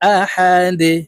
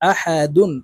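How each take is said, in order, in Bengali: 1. শব্দটি থেমে যাওয়া, ঝাঁকুনিযুক্ত 'দ' দিয়ে শেষ হয়। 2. শব্দটি পূর্ণ '-dun' অক্ষর দিয়ে শেষ হয়। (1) "দালকে ওয়াকফের ক্ষেত্রে সাকিন করে ফেলবো, দাল যেহেতু কলকলার হরফ নিচের দিকে ধাবিত করে ধাক্কা দিয়ে উচ্চারণ করব।" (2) "দাল দুই পেশ দুন"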